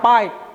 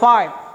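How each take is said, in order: First: The first sound is a p with closed lips. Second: The first sound is an f, teeth on lip. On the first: The speaker calls it wrong. "bukan pipe" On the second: The speaker calls it right. "tapi five"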